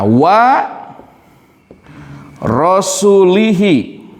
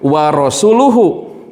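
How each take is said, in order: First: The final syllables are said with an 'i' vowel. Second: The final syllables are said with a 'u' vowel. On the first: God disowns the polytheists and also His messenger. The speaker calls it wrong. "ini menggunakan kasrah" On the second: God and His messenger disown the polytheists. The speaker calls it right. "Harusnya dibacanya wa rasuluhu. ... ini menggunakan dhammah"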